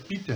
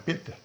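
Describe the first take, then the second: First: The first vowel is not a closed e. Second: The first vowel is a closed e. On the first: The speaker calls it wrong. "não" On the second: The speaker calls it right. "é com o E fechado"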